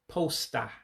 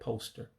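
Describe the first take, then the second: First: It is said with the Igbo pronunciation. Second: It is said with the English pronunciation. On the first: "posta instead of poster for English" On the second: "poster for English"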